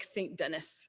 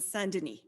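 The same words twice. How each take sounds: First: The name is pronounced the English way. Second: The name is pronounced the French way.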